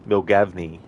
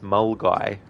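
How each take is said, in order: First: The name is read out following its spelling. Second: The name is said in the short local way. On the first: The speaker calls it wrong. "someone was to think it was Milgavney" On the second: The speaker calls it right. "weird pronunciation"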